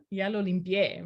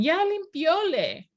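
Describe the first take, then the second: First: Said in the usual way. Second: Put-on higher, slow childish voice; playful child imitation, higher and slow; imitating son's mistake. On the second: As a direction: mimic a small boy's wrong Spanish. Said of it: "And he'll say, he'll, he'll respond".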